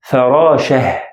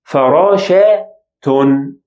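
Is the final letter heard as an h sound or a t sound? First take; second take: h sound; t sound. First: The word ends with a soft h sound. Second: The letter is sounded as t before an ending. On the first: "I pronounce it as H sound or he sound" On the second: "I pronounce it as ta sound"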